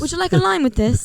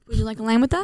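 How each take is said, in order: First: It is said in a British accent. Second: It is said in an American accent.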